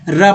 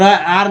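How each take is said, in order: First: "र" as a short "ra" sound; letter sound. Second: "आर" as the name of the letter R; letter name, rejected. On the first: Teacher giving the sound to read, short "र". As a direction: say "र" without the leading vowel. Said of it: "र पढ़ेंगे". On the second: Teacher showing what not to read, letter name "आर". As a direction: say "आर" with its leading long vowel. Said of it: "आर नहीं पढ़ेंगे". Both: Shown as a demonstration.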